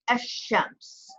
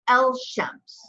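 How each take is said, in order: First: The L becomes a doubled sh sound. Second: A clear L sound comes before sh. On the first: The speaker calls it right. "you say Esh Shems ... you're pronouncing it twice" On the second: The speaker calls it wrong. "So you don't say El Shems"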